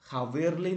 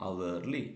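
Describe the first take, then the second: First: "ഹവേർലി" with the h sounded; "ഹവേർലി" with a clear h; wrong aspirated h. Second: "അവേർലി" opening on the vowel; "അവേർലി" with a silent h. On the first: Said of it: "എന്നല്ല". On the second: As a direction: drop the h: "അവേർലി". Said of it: "ഹവേർലി എന്നല്ല". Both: Shown as a demonstration.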